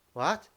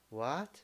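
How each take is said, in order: First: Loud, high, rising WHAT; shocked. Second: Understated, rising WHAT of disbelief; disbelieving. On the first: Teacher showing shocked reaction for the second tone, shocked. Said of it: "You are shocked". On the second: Teacher showing disbelief for the second tone, disbelieving. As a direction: lift WHAT into a doubtful question. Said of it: "You don't believe it". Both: Shown as a demonstration.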